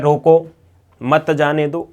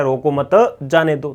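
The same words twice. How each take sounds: First: रोको set apart by a pause, then मत जाने दो together; pause after रोको. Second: रोको मत as one unit, a break, then जाने दो; pause after मत. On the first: Teacher showing punctuation changes meaning, pause after रोको. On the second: Teacher showing the opposite meaning, pause after मत. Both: Shown as a demonstration. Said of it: "आप कहाँ पर रुक रहे हैं".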